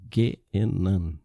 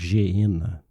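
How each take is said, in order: First: The word begins with a hard G sound. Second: The word begins with a soft J sound. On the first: The speaker calls it right. "a gente pronuncia Genan" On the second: The speaker calls it wrong. "e não Geena"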